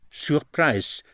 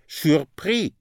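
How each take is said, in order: First: Surprise said the English way, ending in -PRIZE with an I sound; teacher sounds out Surprise in English so the long I is clear; English pronunciation. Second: Surpris said the French way, soo-PREE with a silent final s; teacher sounds out surpris in French, ending on a clean EE; French pronunciation. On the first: Teacher contrasting English Surprise with French surpris for learners. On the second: Language teacher modelling French surpris for learners. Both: Shown as a demonstration. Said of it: "Surprised is, like in English".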